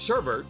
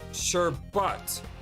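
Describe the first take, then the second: First: The second syllable has an R sound. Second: The second syllable has no R sound.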